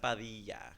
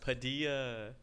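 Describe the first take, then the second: First: The name is said with a Spanish accent. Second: The name is said with an anglicized accent.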